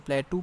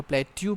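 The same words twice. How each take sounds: First: प्लेटू, a clean "too" ending; the pletu reading of plateau. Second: प्लेट्यू, gliding "tyoo" in the second syllable; the pletyu reading of plateau. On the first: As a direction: say प्लेटू as plain "ple-too" with no y glide. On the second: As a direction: say प्लेट्यू as "ple-tyoo" with a y glide. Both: Shown as a demonstration. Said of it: "कुछ लोग इसको प्लेटू पढ़ते हैं".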